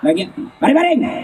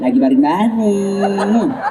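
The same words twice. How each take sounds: First: It is said firmly and curtly. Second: It is said softly and drawn out.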